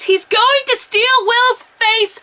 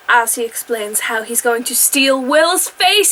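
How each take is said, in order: First: Higher, slow and louder, stunned; incredulous exclamation. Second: Said in the usual way. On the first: Real, not acted. Recapping a wild plot twist to viewers, incredulous. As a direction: say it like you can't believe the show went there. Repeats the plot point in disbelief.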